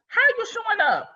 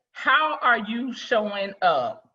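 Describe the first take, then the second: First: Much higher and fast, bright repeat; sudden high-pitched rapid repeat; high quick question. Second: Slow, deliberate question, each word weighed; measured, thoughtful asking. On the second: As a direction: ask it slowly, letting it sink in. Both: Shown as a demonstration. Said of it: "a simple question".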